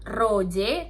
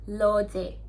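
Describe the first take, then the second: First: The name begins with an R sound. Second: The name begins with an L sound. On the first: The speaker calls it wrong. "Jadi bukan Roje" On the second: The speaker calls it right. "tapi Loje. Tetap L"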